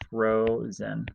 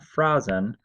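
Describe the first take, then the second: First: The first vowel is a long O sound. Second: The first vowel is a short O sound. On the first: The speaker calls it right. "this is an O because it's the this is where the syllable ends" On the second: The speaker calls it wrong. "It's not frozen"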